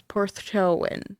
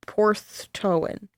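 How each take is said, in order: First: Porthtowan said slowly as PORTH-TOW-an; Porthtowan, slow and careful; careful pronunciation. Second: Porthtowan drawn out slowly, PORTH-TOW-an; careful pronunciation. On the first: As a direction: sound out Porthtowan syllable by syllable. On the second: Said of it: "I'm probably fucking that up". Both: Shown as a demonstration.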